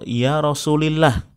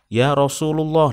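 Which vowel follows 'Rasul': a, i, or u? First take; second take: i; u. First: The vowel after Rasul is i. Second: The vowel after Rasul is u. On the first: "itu juga salah" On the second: "nah itu salah"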